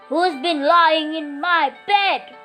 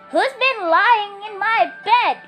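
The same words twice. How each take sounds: First: It is said in a big, deep voice. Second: It is said in a medium-sized voice. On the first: "said Daddy Bear in his big voice" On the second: "said Mummy Bear in her middle-sized voice"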